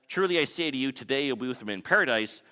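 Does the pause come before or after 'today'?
before. The pause comes before the word today.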